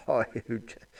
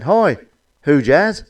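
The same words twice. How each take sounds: First: Much softer "Hi, who Jazz?" half laughed under the breath; laughing repeat. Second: Called greeting. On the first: Real, not acted. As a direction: mutter "Hi, who Jazz?" through a giggle. Repeats punchline while laughing. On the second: Acted. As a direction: call out "Hi, who Jazz?" brightly. Passers-by greeting the lady.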